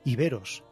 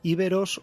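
First: The stress falls on the second syllable. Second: The stress falls on the first syllable. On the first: "se puede decir de las dos maneras" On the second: "se puede decir de las dos maneras"

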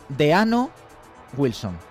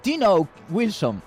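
First: The name is read with Spanish vowel sounds. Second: The name is said with English vowel sounds. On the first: "En castellano" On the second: "Pero que en inglés, a lo mejor es"

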